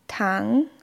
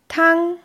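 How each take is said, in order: First: The pitch rises from a middle level. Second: The pitch stays high and level. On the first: It means sugar. "Beim zweiten Ton steigt die Stimme von einer mittleren Tonhöhe an" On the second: It means soup. "Der erste Ton wird gleichbleibend hochgesprochen"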